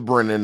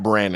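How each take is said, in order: First: The first vowel sounds like the one in 'bed'. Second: The first vowel sounds like the one in 'bad'. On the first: The speaker calls it right. "his name is Brennan" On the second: The speaker calls it wrong. "not Brannon"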